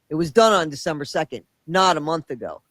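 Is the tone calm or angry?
angry. It is read in a heated, angry tone.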